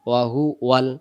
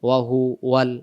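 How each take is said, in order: Both takes have the same delivery.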